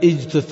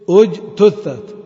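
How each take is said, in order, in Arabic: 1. تبدأ الكلمة بصوت 'i'. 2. تبدأ الكلمة بصوت 'u'. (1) "إذا بدأ اجتثت خطأ" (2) "إذن الهمزة"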